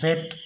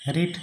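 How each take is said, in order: First: The vowel is short, like in 'red'. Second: The vowel is long, like in 'reed'. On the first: It is the past participle of the verb. "উচ্চারণটা হবে রেড" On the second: It is the present form of the verb. "রিড ভার্বের তিনটে ফর্মই একই রকম হয়, শুধু প্রোনাউন্সিয়েশনটা একটু আলাদা হয়"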